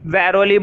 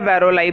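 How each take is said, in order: First: The word ends with an 'ee' sound. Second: The word ends with an 'eye' sound. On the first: "वैरोली बोलो" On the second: "या वैरोलाई बोलो"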